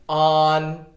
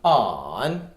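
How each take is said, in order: First: The pitch stays high and level. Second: The pitch dips low, then rises. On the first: "On on first tone" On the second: "On on third tone"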